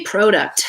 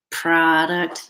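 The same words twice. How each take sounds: First: "product" with a long O, as in "pro"; Canadian "product" with a clear O in the first syllable. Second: "Product" as PRAH-duct, pitched low; non-Canadian "Product", open "ah" for the O; A-like vowel. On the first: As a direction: say "product" as PROH-duct, drawn out. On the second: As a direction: say "Product" with an "ah" in the first syllable. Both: Shown as a demonstration. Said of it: "There's an O and not an A".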